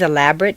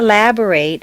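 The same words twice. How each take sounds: First: The final syllable has a weak, reduced vowel. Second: The final syllable has a full 'ay' vowel. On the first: It is used as an adjective. "in an adjective is completely reduced to mt" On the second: It is used as a verb. "in a verb it's a full a sound"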